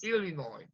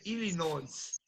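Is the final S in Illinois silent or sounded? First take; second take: silent; sounded. First: The final S is silent at the end. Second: The final S is pronounced at the end. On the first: The speaker calls it right. "No, it's Illinois" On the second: The speaker calls it wrong. "You cannot say Illinois"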